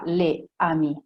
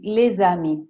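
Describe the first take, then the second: First: The s stays silent with no link. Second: The s sound links into the next word. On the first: The speaker calls it wrong. "Non si dirà" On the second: The speaker calls it right. "Come per esempio in questi tre esempi"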